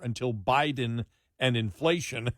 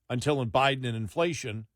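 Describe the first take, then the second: First: The phrase is spoken slowly and deliberately. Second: The phrase is spoken at a normal pace.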